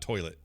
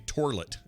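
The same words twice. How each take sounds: First: The first syllable does not sound like 'tor'. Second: The first syllable sounds like 'tor'. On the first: This is the usual way to say it. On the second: This is how someone else used to say it.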